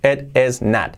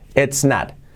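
First: It is said in full as two words. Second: It is contracted into a single syllable.

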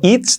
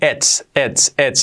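First: The final T and S are weak. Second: The final T and S are crisp. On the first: The speaker calls it wrong. "no digo it's" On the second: The speaker calls it right. "digo it's, y marcando la T y la S"

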